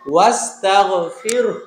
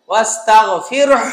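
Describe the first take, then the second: First: The ending is said lightly, without pressing. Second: The ending is said with heavy pressure. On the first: The speaker calls it right. "এখানে যদি আমরা থামি তাহলে আমাদের এই উচ্চারণটা হচ্ছে" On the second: The speaker calls it wrong. "এরকম চাপ দেওয়া যাবে না"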